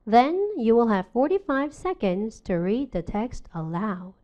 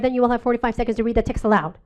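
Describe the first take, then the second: First: It is read with pauses between phrase chunks. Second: It is read quickly without phrase breaks. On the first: The speaker calls it right. "의미 단위를 지킨다면" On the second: The speaker calls it wrong. "무조건 빨리 읽어"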